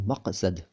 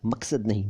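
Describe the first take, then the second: First: मकसद with a uvular q in the middle; मकसद with the nukta sound; correct pronunciation. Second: मकसद with a plain k in the middle; मकसद without the nukta; wrong pronunciation. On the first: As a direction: say मकसद the right way. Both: Shown as a demonstration.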